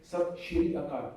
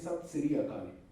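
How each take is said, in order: First: The middle word begins with an 'sh' sound. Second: The middle word begins with an 's' sound. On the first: "have you ever heard a Punjabi saying" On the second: "we don't use sh or z. It is either s or j"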